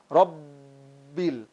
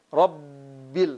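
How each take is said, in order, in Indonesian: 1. Bunyi B ditekan, digembungkan, dan dipanjangkan. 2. Bunyi B ditekan, digembungkan, dan dipanjangkan.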